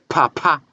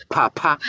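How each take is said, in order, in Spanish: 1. La P se pronuncia con un soplo fuerte de aire. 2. La P se pronuncia con un soplo fuerte de aire.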